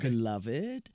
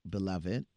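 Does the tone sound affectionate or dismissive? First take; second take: affectionate; dismissive. First: It sounds warm and coaxing. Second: It sounds dismissive and mocking. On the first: The listener is being sweetly coaxed. "that means come on, baby" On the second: The listener is being called a fool. "that means fool"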